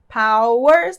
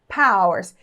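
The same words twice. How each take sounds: First: Both syllables are said fully and clearly separated. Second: The second syllable is said very weakly. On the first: "Com essas duas sílabas bem separadas" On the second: "a gente pode falar bem fraquinho a segunda sílaba"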